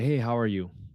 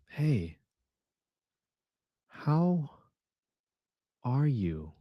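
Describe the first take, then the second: First: The greeting sounds casual and unconcerned. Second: The greeting sounds worried and concerned.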